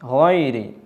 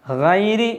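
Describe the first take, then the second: First: The first consonant is full-mouthed and heavy. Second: The first consonant is thin and light. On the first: The speaker calls it right. "വായ നിറയെയാണ് ഈ അക്ഷരം ഉച്ചരിക്കേണ്ടത്" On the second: The speaker calls it wrong. "ഹൈരി എന്ന് പറയാൻ പാടില്ല"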